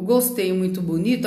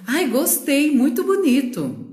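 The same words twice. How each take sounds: First: Said in the usual way. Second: "Ai, gostei, muito bonito" sung out higher and brighter, big swooping tune on "Ai"; entonação animada e mais aguda em "Ai, gostei, muito bonito"; exaggerated excited tune. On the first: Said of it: "a entonação desse". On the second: Shown as a demonstration. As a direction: gush "Ai, gostei" high with delight. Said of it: "é diferente de eu falar assim".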